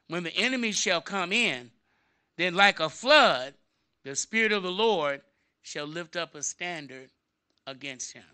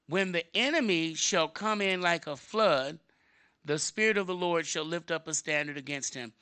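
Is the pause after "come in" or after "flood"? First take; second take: after come in; after flood. First: The pause comes right after "come in". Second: The pause comes after "like a flood".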